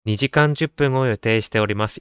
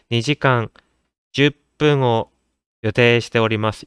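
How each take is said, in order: First: The phrase flows on without any internal pauses. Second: The phrase is broken up by pauses between words. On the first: The speaker calls it right. "이렇게 자연스럽게 이어가 주셔야 되는데" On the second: The speaker calls it wrong. "이런 식으로 표현 하나하나를 다 띄어쓰기가 없는데도 끊어 읽으시는"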